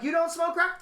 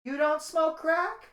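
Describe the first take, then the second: First: Casual mocking question. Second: Slow, high, casually puzzled question; calm casual surprise. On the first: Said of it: "She's like". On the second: Retold or imitated. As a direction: ask like it's the most normal thing. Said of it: "And calmly, this bitch says to me".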